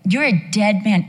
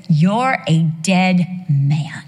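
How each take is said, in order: First: Said in the usual way. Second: Slow, heavy, deliberate verdict; God's stern verdict. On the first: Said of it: "I tried that". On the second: Acted. God warning the king, slow stern verdict. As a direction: lay it down slowly like judgment. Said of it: "he says".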